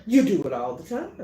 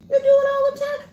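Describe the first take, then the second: First: Said in the usual way. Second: You do it all the time, higher and louder; emphatic repeat. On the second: Shown as a demonstration. Preacher pressing the congregation, much higher and louder. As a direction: drive the point home, higher. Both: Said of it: "repeated louder".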